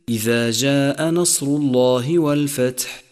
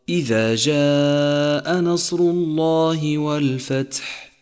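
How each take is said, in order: First: The long vowels are cut short. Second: The long vowels are held to full length. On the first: The speaker calls it wrong. "بتر حروف المد بنقصها عن مقدارها" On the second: The speaker calls it right. "والصواب"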